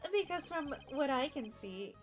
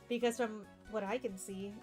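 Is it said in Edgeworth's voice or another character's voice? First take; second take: another character's; Edgeworth's. First: It is said in another character's voice. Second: It is said in Edgeworth's voice.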